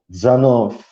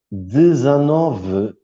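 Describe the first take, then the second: First: The vowel after the first d is dropped. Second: The vowel after the first d is pronounced.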